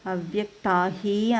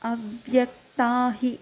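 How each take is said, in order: First: The final 'hi' is stretched out long. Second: The final 'hi' is short and joined on. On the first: The speaker calls it wrong. "అనకూడదు" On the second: The speaker calls it right. "దీంట్లో కలిపేస్తే చిన్నగా చదువుతాం"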